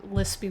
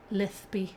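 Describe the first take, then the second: First: Said in the usual way. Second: "Lispy" with the s turned to th; "Lispy" said as lith-pee; lisped Spanish accent. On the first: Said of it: "What type of accent do I have?". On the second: Shown as a demonstration. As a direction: lisp the middle of "Lispy". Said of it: "It's a very lispy one".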